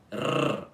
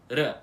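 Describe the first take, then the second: First: The R is strong and rolled. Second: The R is a single quick tongue tap. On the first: "com um R mais forte e bem diferente do nosso" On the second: "apenas colocando a língua no céu da boca por um instante"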